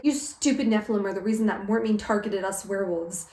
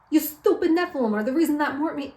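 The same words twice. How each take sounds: First: Said in the usual way. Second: Higher-pitched mock New York accent; cartoonish New Yorker accusation; bad New York accent. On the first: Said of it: "They're like". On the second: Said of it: "they have a bad New York accent".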